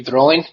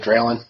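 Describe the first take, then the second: First: Drolin with a rolled R and EE in the last syllable; technically correct pronunciation. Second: Draylen with a plain English R and AY vowel; anglicized pronunciation. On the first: Guest teaching the technical form, Drolin with rolled R. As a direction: roll the R in Drolin, end it "-leen". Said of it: "You have to kinda roll the R a bit". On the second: Guest giving the common form, anglicized Draylen. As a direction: say Draylen the English way, short unstressed ending. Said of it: "most people anglicize it by saying". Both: Shown as a demonstration.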